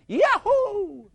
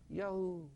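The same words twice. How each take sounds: First: It is shouted with joyful, rejoicing energy. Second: It is said flatly, without any real joy. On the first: The speaker is glad to be in trouble. The speaker calls it right. "listen to me" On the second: The speaker is upset about being in trouble. The speaker calls it wrong. "No, not like that"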